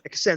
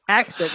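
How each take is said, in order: First: The stress is on the second syllable. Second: The stress is on the first syllable. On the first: "puts the emphasis on the second syllable" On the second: "I say accent"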